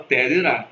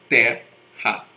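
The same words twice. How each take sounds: First: "terá" with the stress on the last syllable; wrong stress. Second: "terra" stressed on the first syllable, "TE-rra"; correct stress. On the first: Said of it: "ninguém fala terá". (pronúncia errada "terá", tônica no fim) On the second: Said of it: "nós falamos". (pronúncia certa "terra", tônica no "te") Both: Shown as a demonstration.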